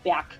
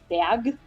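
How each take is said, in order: First: The word ends with a hard k sound. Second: The word ends with a soft g sound. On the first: The speaker calls it right. "as if there were a K at the end" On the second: The speaker calls it wrong. "Berg with a soft sound at the end"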